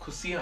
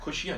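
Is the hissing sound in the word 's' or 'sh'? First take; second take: s; sh. First: The word is said with a plain s sound. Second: The word is said with an sh sound. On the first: The speaker calls it right. "ਇੱਥੇ ਖੁਸ਼ੀਆਂ ਹੈ" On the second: The speaker calls it wrong. "ਖੁਸ਼ੀਆਂ ਨਹੀਂ ਹੈਗਾ"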